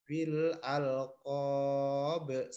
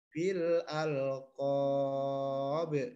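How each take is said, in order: First: The last vowel is held for one beat. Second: The last vowel is held for two beats. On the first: "satu alif" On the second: "dua alif"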